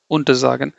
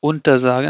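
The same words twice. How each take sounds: First: Untersagen in one piece, stress on SA; unstressed prefix. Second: UNTER leaned on before sagen; wrongly stressed prefix. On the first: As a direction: let unter pass lightly into SAgen. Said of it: "I'm not emphasizing the prefix". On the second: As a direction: counterexample untersagen with emphasis on UNTER. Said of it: "I'm not saying". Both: Shown as a demonstration.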